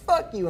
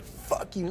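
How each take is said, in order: First: High, sharp mock yell of the boss; retold curse. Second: Whispered, softer retort; retold curse under breath. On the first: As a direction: fling it back at her, pitched way up. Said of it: "She was like". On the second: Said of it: "I was like".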